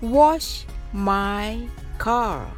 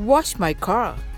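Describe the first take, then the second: First: The phrase is spoken slowly and deliberately. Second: The phrase is spoken at a natural, quicker pace. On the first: "はじめはゆっくりです。" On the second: "次にナチュラルスピードで練習してみましょう。"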